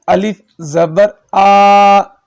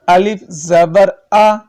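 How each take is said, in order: First: آ held long and louder; slow drawn-out الف زبر آ with a long آ; wrong stretched aa. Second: الف زبر آ with a short آ, no jerk; slow, even, unstretched آ; correct short aa. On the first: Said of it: "یہ غلط ہے". (آ کو کھینچ کر غلط پڑھنا) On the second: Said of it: "جو صحیح ہے وہ کیا ہے". (صحیح مختصر آ) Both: Shown as a demonstration.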